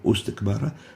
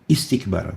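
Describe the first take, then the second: First: The word begins with a u vowel. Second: The word begins with an i vowel. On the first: The speaker calls it wrong. "or ustakbara" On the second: The speaker calls it right. "it always comes with a kasra"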